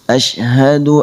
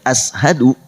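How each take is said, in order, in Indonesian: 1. Konsonan di tengah itu bunyi sh. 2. Konsonan di tengah itu bunyi s biasa. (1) "Yang tepat shinnya keluar dari tengah lidah" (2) "Jangan ashadu"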